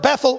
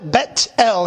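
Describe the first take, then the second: First: It is said the usual English way. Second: It is said as two separate parts, Bet-El.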